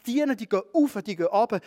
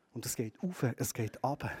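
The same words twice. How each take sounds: First: Lifted and a touch louder, stressing auf and ab; "auf" pitched up and "ab" dropped, like a ladder; bright preaching emphasis on "auf" and "ab"; rising energy. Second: Much softer and lower, "auf" and "ab" gently breathed out; quiet tender echo of the ladder. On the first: Angels going up and down. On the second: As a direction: let "auf" rise and "ab" fall, almost hushed. Ladder image repeated softly. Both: Acted.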